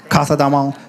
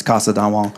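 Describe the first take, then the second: First: Spanish accent. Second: Said in the usual way. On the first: Shown as a demonstration. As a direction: say "Casa Don Juan" with a Spanish th for s. Repeats name with Spanish lisp.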